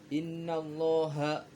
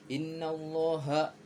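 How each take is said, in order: The two takes are said the same way.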